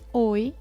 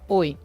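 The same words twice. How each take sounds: First: The greeting sounds warm and friendly. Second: The greeting sounds cold and harsh. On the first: The greeting is welcoming. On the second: The greeting feels threatening.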